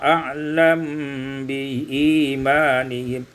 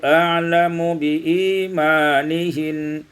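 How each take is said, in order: First: The m has no vowel and is hidden. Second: A vowel is heard after the m.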